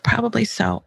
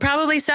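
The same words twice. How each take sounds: First: It sounds low, calm and empathetic. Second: It sounds dismissive and sarcastic. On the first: The speaker is soaking up the emotion with empathy. The speaker calls it right. "But if I can be like, oh" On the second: The speaker doesn't mean any of it. The speaker calls it wrong. "Because I could also say, well"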